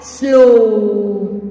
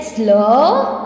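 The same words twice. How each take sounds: First: "slow" as the full word, vowel stretched long; pronunciation demo. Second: "slow" as just the S L blend, vowel left rising; blend sound demo. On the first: Teacher showing how it will pronounce, drawn-out demo. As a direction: draw out the o in "slow" with a falling end. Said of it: "it will pronounce like". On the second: Teacher building the word from S L, blend demo. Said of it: "So S L". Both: Shown as a demonstration.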